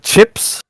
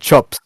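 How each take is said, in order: First: It is said with an Australian accent. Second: It is said with a New Zealand accent.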